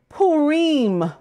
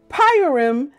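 First: Purim is said in the Eastern traditional way. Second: Purim is said in an anglicized English way. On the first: This is how Eastern communities say it. "In Eastern tradition, it is called Purim" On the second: It marks the speaker as a newcomer. "as English speakers are sometimes accused of doing, is a surefire newbie cover blower"

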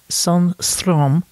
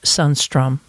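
First: The name is said with a Swedish accent. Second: The name is said with an English accent. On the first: "if I do it a little bit in a Swedish style" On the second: "a very anglicized way to say it"

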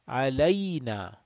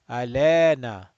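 First: The middle vowel glides like 'ay'. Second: The middle vowel is a plain 'e' sound. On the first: The speaker calls it right. "alayna, not lena. Lena wrong" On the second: The speaker calls it wrong. "Lot of people will read this like this. ... That's wrong"

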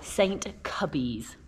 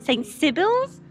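First: The name starts with a hard K sound. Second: The name starts with a soft S sound. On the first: The speaker calls it right. "Am I saying it right? Yes" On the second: The speaker calls it wrong. "If I probably said like Saint Sibyl's"

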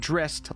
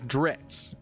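First: The name ends like the word mist. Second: The name ends like the word Ritz. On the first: "pronouncing Drizzt like the word mist" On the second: "pronounced like Ritz crackers"

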